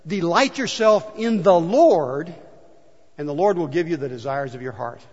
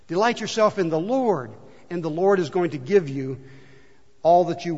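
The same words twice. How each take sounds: First: Scripture reading. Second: Said in the usual way. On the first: Shown as a demonstration. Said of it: "Psalm thirty-seven says". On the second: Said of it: "What a great promise".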